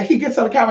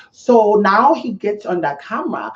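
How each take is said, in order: First: Said in the usual way. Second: Slow, higher-pitched fake accent drifting toward Vietnamese; botched mock French accent. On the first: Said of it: "but anyway, so". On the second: Mocking his on-camera act, botched French accent. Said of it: "now it sounds a little Vietnamese there".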